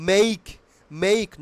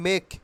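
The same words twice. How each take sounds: First: "make" with a full ei glide; corrected pronunciation. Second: "make" with a short pure e; wrong pronunciation. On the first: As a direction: glide the vowel in "make", a bit louder. ("make" টানা এই স্বরে, মেইক) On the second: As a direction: say "make" like mek, no glide. ("make" ছোট এ দিয়ে, মেক) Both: Shown as a demonstration. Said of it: "Not make".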